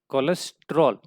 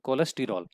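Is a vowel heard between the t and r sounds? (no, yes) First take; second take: no; yes. First: The t and r run together without a vowel. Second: An extra vowel separates the t and r. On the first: This is the everyday way people say it. "हम common language में कोलेस्ट्रॉल करके बात करते हैं" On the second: This is the chemically correct way to say it. "अगर सही उच्चारण करें"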